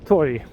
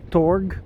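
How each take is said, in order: First: The word ends with a soft Y-like sound. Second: The word ends with a hard G sound. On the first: The speaker calls it right. "the G sound is more pronounced like a J sound" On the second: The speaker calls it wrong. "you don't say torg like you would say in English"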